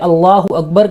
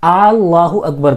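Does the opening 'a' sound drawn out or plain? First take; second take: plain; drawn out. First: It begins with a plain short vowel. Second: It begins with an extra drawn-out vowel. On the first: It says that God is the greatest. The speaker calls it right. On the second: It turns the phrase into a question. The speaker calls it wrong.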